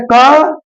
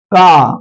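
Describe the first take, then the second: First: क short, pitch rising; short half sound. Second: का held out, pitch falling; full long sound. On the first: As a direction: clip the vowel of क. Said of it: "कम होनी चाहिए". (क की छोटी ध्वनि) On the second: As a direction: draw the vowel of का out fully. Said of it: "पूरी होनी चाहिए". (का की लंबी, पूरी ध्वनि) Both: Shown as a demonstration.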